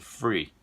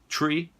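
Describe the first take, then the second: First: The word starts with an F sound. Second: The word starts with a T sound. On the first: "ou às vezes sai grátis" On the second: "Às vezes sai uma árvore"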